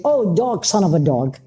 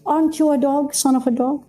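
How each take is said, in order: First: Belittling. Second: Light, higher-pitched question, rising at the end; high, softened, matter-of-fact query; not belittling. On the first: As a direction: say it as a contemptuous put-down. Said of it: "the tone is belittling". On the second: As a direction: ask it harmlessly, with no put-down. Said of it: "the tone is belittling. Versus". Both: Shown as a demonstration.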